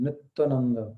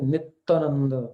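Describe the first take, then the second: First: It is said with a Bengali pronunciation. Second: The same.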